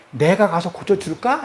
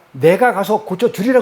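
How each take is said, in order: First: 고쳐줄까 lifted into a rising question; a gentle offer posed as a question, 고쳐줄까 rising; questioning tune. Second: Said in the usual way. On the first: Shown as a demonstration. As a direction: ask it, let 고쳐줄까 climb at the end. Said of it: "의문문이에요". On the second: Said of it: "원문을 보면 이 말이 아니에요".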